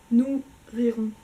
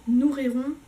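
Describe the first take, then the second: First: "nous rirons" slowly, with a gap after "nous"; split into two words. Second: "nous rirons" joined without a pause, like a single word; run together as one word. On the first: Showing viewers a pun, "nous ... rirons" split in two. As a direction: separate "nous" from "rirons", louder and slower. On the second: Showing viewers a pun, "nous rirons" run together. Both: Shown as a demonstration. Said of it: "j'adore faire des jeux de mots".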